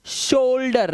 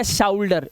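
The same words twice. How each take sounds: First: शोल्डर with a pure ओ, no आउ; correct pronunciation. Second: शाउल्डर with a wrong आउ glide; wrong pronunciation. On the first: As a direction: teach शोल्डर with plain ओ. (सही उच्चारण: शोल्डर, सिर्फ ओ) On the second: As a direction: show the mistake शाउल्डर. (गलत उच्चारण: शाउल्डर आउ के साथ) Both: Shown as a demonstration. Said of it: "ना कि शोल्डर या शाउल्डर".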